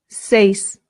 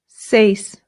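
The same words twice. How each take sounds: No difference in how they are said.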